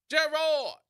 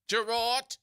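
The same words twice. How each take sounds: First: "Gerard" called out high and loud, hard T at the end; hailing "Gerard" with a crisp T. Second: "Gerard" called high and loud, T on the end stressed even more; hammed-up "Gerard" with a doubled T; with another T. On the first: Retold or imitated. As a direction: shout "Gerard" from afar and land the final T. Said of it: "with a T". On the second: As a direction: call "Gerard" again, leaning on the final T. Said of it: "with another T".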